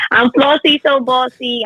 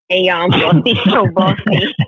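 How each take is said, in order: First: Higher, punchy self-introduction; announcer intro. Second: Intro broken by a real laugh. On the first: Acted. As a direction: announce your name like a show host. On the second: Real, not acted. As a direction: start the intro and crack up midway. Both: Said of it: "I gotta do the intro".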